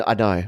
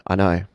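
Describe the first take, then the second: No difference in how they are said.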